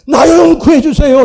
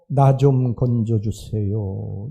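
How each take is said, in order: First: The plea is said desperately, with urgency. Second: The plea is said calmly, without urgency.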